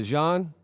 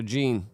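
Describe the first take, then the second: First: Jean said French-style, rhyming with "on"; French pronunciation. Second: Jean said English-style, rhyming with "seen"; English pronunciation. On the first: Streamer checking a viewer's name, Jean pronounced the French way. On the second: Streamer checking a viewer's name, Jean pronounced like "jeans" without the s. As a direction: say Jean with a hard "j" and a long "ee". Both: Shown as a demonstration. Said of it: "How do I pronounce that?".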